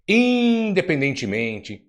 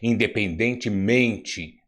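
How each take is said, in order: First: The stress falls on a syllable other than 'men'. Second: The stress falls on the syllable 'men'. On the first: The speaker calls it wrong. "é correto? Não, não é" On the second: The speaker calls it right. "qual é a sílaba tônica? É men"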